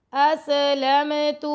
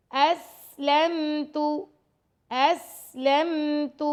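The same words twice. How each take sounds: First: اسلمت with the س bounced; wrong qalqalah. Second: Slow اسلمت with a hissing س, no bounce; correct hissing sin. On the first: Teacher shows students the wrong bounced reading. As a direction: bounce the سین in اسلمت as a mistake. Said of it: "تو یہ wrong ہے". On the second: Teacher models the correct hissing reading for students. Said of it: "سٹی کی آواز پیدا ہوگی". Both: Shown as a demonstration.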